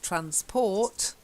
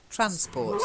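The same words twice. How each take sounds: First: The stress is on the second syllable. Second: The stress is on the first syllable. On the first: The speaker calls it wrong. "not stress transport" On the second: The speaker calls it right. "It's just transport. Stress is on the first syllable"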